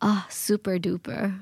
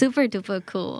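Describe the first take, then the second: First: It is said in a sarcastic tone. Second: It is said sincerely and enthusiastically.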